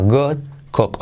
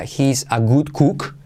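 First: "good cook" with a mostly O vowel, "got kok"; O-coloured "good cook". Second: "good cook" with a Spanish oo, "gut kuk"; pure oo in "good" and "cook"; wrong U vowel. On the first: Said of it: "Ochenta por ciento O". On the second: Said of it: "No sería". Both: Shown as a demonstration.

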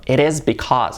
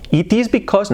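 First: Said in the usual way. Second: It is because with a high jump on is; wrong stress. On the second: Shown as a demonstration. Teacher shows the wrong stress on It is because. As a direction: overstress is.

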